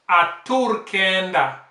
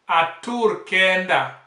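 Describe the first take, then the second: The two takes are said the same way.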